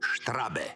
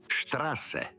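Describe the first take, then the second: First: The middle consonant is a b sound. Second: The middle consonant is a hissing s sound. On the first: The speaker calls it wrong. "Nikad štrabe" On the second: The speaker calls it right. "Čitaš ga kao zmija"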